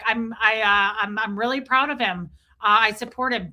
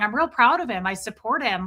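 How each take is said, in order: First: It is said flatly, without emotion. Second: It is said warmly, with a smile.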